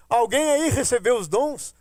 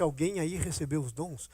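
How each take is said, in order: First: Calling out. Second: Quiet retelling. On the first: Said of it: "Voltei e disse". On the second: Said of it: "Quando eu disse". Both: Retold or imitated.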